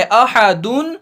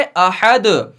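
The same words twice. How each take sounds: First: अहदुन read with the final -un fully sounded; full vowel ending. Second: अहद with the final दाल stopped, no vowel; pausal reading. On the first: Teacher reads अहदुन as written, full ending. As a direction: say अहदुन as ahadun with the nunation. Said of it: "लिखा है अहदुन". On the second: Teacher shows अहद read with a stop on the last letter. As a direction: say अहद as ahad, cut off on the d. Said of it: "लेकिन पढ़ेंगे अहद". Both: Shown as a demonstration.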